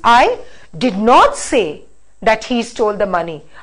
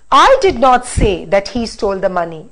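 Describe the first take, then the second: First: The stress falls on the words did not. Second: The stress falls on the word I. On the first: Nothing like that was ever said. "Now I'm going to stress on did not" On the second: Somebody else said it. "by stressing on I"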